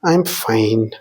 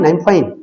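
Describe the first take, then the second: First: It is said in a sad, depressed tone. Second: It is said in a cheerful, happy tone. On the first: The speaker is actually unhappy. "രണ്ടാമത്തേതിൽ ഒരു സങ്കടമോ അല്ലെങ്കിൽ ഒരു depressed രൂപത്തിലുള്ളതായിരുന്നു" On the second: The speaker is genuinely well. "ആദ്യത്തേതോ ഒരു സന്തോഷമുള്ളതായിരുന്നെങ്കിൽ"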